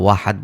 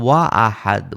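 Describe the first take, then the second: First: 'Wa' runs straight into 'ahad' with no break. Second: A glottal break separates 'wa' from 'ahad'. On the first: The speaker calls it wrong. "আমরা ওয়াহাদ বলতাম না।" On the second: The speaker calls it right. "যদি ওয়াও থাকতো তাও আমরা ওয়া আহাদ বলতাম।"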